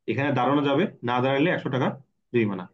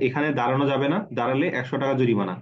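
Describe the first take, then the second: First: The pause comes before the word 'না'. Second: The pause comes after the word 'না'.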